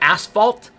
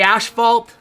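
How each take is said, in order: First: It is said the American way. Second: It is said the Canadian way. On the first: "Even though it's asphalt, in America" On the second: "we say asphalt"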